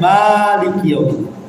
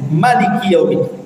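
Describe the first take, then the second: First: The vowel after the m is held long. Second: The vowel after the m is kept short. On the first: "dipanjangkan mimnya" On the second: "dipendekkan mimnya"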